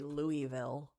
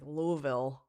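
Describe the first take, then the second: First: The name is said the non-local, outsider way. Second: The name is said the local residents' way. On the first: The speaker calls it wrong. "people from Louisville don't say Louisville" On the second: The speaker calls it right. "They say like Louisville. It's like one like a, s- a mouth feel to it"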